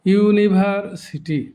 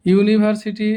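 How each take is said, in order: First: university slowly in five beats; split into syllables. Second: Said in the usual way. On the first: Shown as a demonstration. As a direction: give each syllable of university its own slow beat. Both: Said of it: "শব্দটি পাঁচবার উচ্চারণ করতে হয়".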